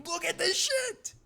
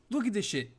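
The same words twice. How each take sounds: First: Much higher, slow exasperated whine; a high, drawn-out cry of disbelief; incredulous. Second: Said in the usual way. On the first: Real, not acted. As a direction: squeak it out in disbelief. Repeats line, second much higher.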